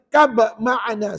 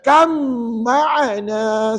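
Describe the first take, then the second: First: A separate b sound is heard before ma'ana. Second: The b merges into a doubled, nasal m. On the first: The speaker calls it wrong. "Dia baca kab ma'ana. Salah" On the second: The speaker calls it right. "Dia kena baca kam ma'ana"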